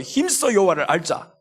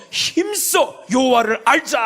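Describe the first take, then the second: First: Said in the usual way. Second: Higher, slow ringing shout; proclaimed verse. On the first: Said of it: "하는 거예요". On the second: Shown as a demonstration. Preacher proclaiming Hosea's verse to the church, slow ringing shout. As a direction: call the verse out with force. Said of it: "호세아 육 장 삼 절에서".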